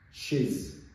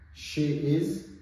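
First: The words are joined into one short syllable. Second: Two full words are said separately. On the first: "These are the short forms" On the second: "These are the short forms"

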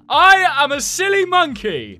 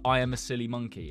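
First: It is screamed loudly. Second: It is said at normal volume.

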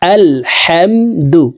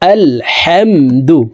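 No difference in how they are said.

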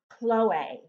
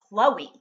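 First: The name is said with a French pronunciation. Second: The name is said with an English pronunciation.

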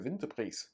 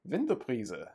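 First: The final E sound is dropped. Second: The final E sound is pronounced.

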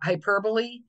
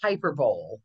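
First: The final E is pronounced as a syllable. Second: The final E is silent, as spelled. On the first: The speaker calls it right. "we call it the magic E, the words that end with an E" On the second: The speaker calls it wrong. "spelling pronunciation, people see it and think it's hyperbole"

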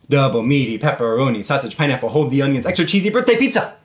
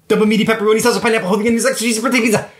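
First: It is said at a normal pace. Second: It is said very fast.

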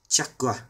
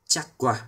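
Both takes have the same delivery.

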